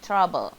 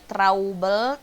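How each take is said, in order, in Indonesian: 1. Vokal pertama terdengar seperti 'uh' pada kata cup. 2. Vokal pertama terdengar seperti 'ow' pada kata mouse. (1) "tapinya ah" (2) "Bukannya trouble"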